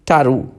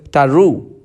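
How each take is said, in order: First: "taru" with the first syllable stressed, falling away on the second. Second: "taru" with the second syllable stressed and drawn out; light start, lean on the end of "taru". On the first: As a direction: hit the start of "taru", let the end drop. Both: Shown as a demonstration. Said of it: "this can create minimal pairs".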